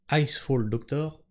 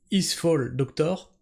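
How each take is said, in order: First: Slow, deliberate English accent on "Icefall Doctor"; "Icefall" opened with an English "eye" sound, slowly. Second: Said in the usual way. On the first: Shown as a demonstration. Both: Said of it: "notez l'accent anglais".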